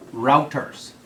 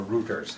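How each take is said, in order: First: "routers" rhyming with "doubters"; first syllable of "routers" sounds like "rout"; routers as ROW-ters. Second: "routers" rhyming with "shooters"; first syllable of "routers" sounds like "root"; routers as ROO-ters. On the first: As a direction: say "routers" with an OW vowel, like "out". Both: Shown as a demonstration. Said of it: "however you want to pronounce it".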